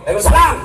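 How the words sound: It is said in a firm, curt voice.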